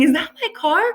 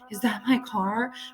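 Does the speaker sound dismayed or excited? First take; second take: excited; dismayed. First: The question sounds thrilled and excited. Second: The question sounds upset and dismayed. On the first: The speaker is getting a first car. "another girl is getting a car for the first time" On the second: The speaker's car has just been wrecked. "One guy's car crashed"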